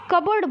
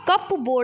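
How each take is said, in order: First: The p is silent, said like kabard. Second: The p is sounded, said like cup board. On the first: The speaker calls it right. "कबर्ड बोलते हो ना" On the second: The speaker calls it wrong. "कप बोर्ड नहीं बोलते हो"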